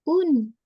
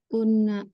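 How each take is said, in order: First: The word stops cleanly on the final n. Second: An extra vowel sounds after the final n. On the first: The speaker calls it right. "tapi un" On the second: The speaker calls it wrong. "jangan dipantulkan ... bukan una"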